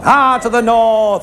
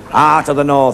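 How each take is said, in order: First: Slow, drawn-out commentator voice; mock northern commentator, slow and drawn out; Eddie Waring drawl. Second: Said in the usual way. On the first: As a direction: stretch it like an old rugby commentator. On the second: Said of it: "isn't it, love?".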